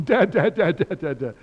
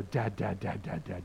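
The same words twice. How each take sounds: First: Loud, high, insistent repeated cries; imitated upset child. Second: Low, softer repeated chant; imitated playful dad-calling. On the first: Cliff really upset and going for Dad, imitated loud wailing call. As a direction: mimic an upset little one calling out. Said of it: "when he's really upset". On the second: Preacher playing with Cliff to make him laugh, light low chanting. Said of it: "he laughs now when I go".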